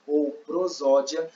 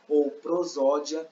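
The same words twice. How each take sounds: The two takes are said the same way.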